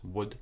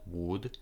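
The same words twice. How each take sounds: First: The word is said quickly and reduced. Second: The word is said slowly and fully. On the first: The speaker calls it right. "it's also very short, so it's would" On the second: The speaker calls it wrong. "not would"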